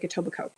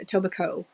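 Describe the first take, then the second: First: The final 'coke' syllable is dropped or reduced. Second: The final 'coke' syllable is clearly pronounced. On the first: The speaker calls it right. "It's more like" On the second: The speaker calls it wrong. "we don't say the Coke part"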